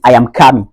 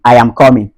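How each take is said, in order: First: COMING as "KAH-min" in a Ghanaian accent. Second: COMING as "KAW-min" in a Nigerian accent. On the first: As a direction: open the vowel of coming to "ah", Ghanaian style. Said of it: "du côté ghanéen". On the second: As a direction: round the vowel of coming to "aw", Nigerian style. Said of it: "Du côté nigérian". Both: Shown as a demonstration.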